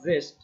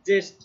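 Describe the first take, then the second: First: The word begins with a 'z' sound. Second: The word begins with a 'j' sound. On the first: The speaker calls it wrong. "Not not জেস্ট" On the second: The speaker calls it right. "তাহলে এটা হচ্ছে জেস্ট"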